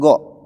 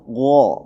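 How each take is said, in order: First: The consonant is a plain, forward 'g' sound. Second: The consonant is a heavy sound from the throat. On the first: The speaker calls it wrong. "Bukan go" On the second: The speaker calls it right. "Gha di sini huruf tebal, huruf tenggorokan"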